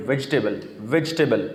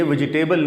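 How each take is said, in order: First: ویجیٹیبل as "vej-tebal"; lower-pitched "VEJ-tbl" for ویجیٹیبل; correct vegetable. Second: ویجیٹیبل as "vi-ji-table"; four syllables in ویجیٹیبل, ending like table; mispronounced vegetable. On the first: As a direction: drop the middle vowel of ویجیٹیبل. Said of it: "یہ ویجیٹیبل نہیں ہے". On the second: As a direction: sound every vowel in ویجیٹیبل. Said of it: "ویجیٹیبل نہیں ہے". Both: Shown as a demonstration.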